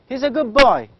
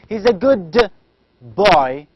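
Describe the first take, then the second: First: The word good ends with a b sound. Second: The word good ends with a d sound. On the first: The speaker calls it right. "instead of saying da, in fact, we pronounce it as b" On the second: The speaker calls it wrong. "We never say he's a good boy"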